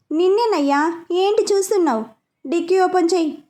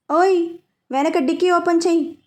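First: Bossy order pitched higher, open stressed and falling; impatient command to the driver. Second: Stern command, open pressed with a falling tune; a stern young woman ordering the driver; serious. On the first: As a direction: snap an order at the staring driver. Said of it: "అన్నది order వేస్తూ". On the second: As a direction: firmly tell him to open the trunk. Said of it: "అన్నది వైషు సీరియస్గా". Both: A narrator's reading.

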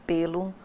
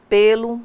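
First: "pelo" said lightly as the preposition. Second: "pelo" as the noun pêlo, stress on a closed first e. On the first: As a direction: give "pelo" as the unstressed preposition. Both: Shown as a demonstration. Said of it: "pares de palavras com grafias idênticas e pronúncias diferentes".

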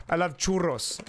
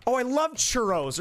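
First: Churros with a rolled Spanish r, slow. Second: Said in the usual way. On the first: Shown as a demonstration. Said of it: "or do you say, like". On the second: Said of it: "do I say".

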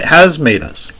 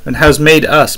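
First: "has" hit as the strongest word; stress on HAS. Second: Said in the usual way. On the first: Shown as a demonstration. Preacher stressing has, not will, with emphasis on "has". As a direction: punch "has" to mark it as already done. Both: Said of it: "not will make us in the future".

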